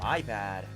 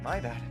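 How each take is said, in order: First: It is said in a sarcastic, mocking tone. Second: It is said in a sincere, apologetic tone. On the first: The apology is not meant seriously. The speaker calls it wrong. "that was like so sarcastic" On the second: The apology is genuine. The speaker calls it right. "She'd be like"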